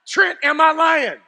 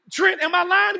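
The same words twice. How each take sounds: First: Higher, louder call to Trent for backup; loud appeal. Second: Excited appeal. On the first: Preacher calling out to Trent for confirmation, loud. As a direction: call out to Trent to back you up. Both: Real, not acted.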